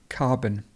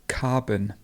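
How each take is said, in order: No difference in how they are said.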